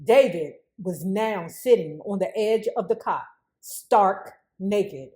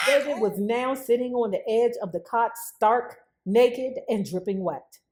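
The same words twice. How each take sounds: First: Said in the usual way. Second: Amused retelling, softer and laughing; laughing reread. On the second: Shown as a demonstration. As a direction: chuckle while repeating it. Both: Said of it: "Ooh, I bet that was a sight".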